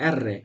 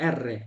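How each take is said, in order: Both takes have the same delivery.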